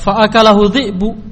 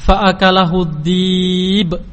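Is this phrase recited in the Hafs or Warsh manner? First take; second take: Hafs; Warsh. First: It is recited with the Hafs pronunciation. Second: It is recited with the Warsh pronunciation. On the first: "dalam qira'ah hafaz dibaca" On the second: "Di dalam qira'ah warsy dibaca dengan"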